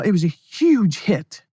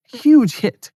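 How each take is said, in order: First: Said in the usual way. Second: Excited. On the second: Real, not acted. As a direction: repeat it with real thrill. Repeats the result, more excited.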